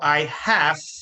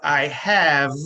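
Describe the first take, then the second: First: The word have ends with a voiceless f sound. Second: The word have ends with a voiced v sound. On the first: The speaker calls it wrong. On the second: The speaker calls it right.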